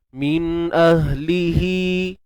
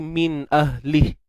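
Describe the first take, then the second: First: The final vowel is held for two counts. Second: The final vowel is dropped at the stop. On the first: The reading continues into the next word. "dua harakat" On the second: The reader stops after this word. "Kalau kita berhenti"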